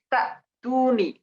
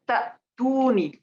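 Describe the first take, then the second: No difference in how they are said.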